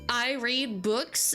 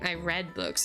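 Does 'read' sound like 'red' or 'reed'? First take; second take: reed; red. First: Read is said with a long ee vowel. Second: Read is said with a short e vowel. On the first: The reading happens now or habitually. The speaker calls it right. "is better than saying" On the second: The reading happened in the past. The speaker calls it wrong. "unless you're saying, you know, in the past"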